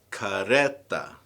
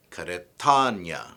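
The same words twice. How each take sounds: First: Said in the usual way. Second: Karetanya slowly, stressed on TA; stress moved along. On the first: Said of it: "the stress moves back". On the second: Shown as a demonstration. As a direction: punch the TA in karetanya. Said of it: "stress moves back one more syllable".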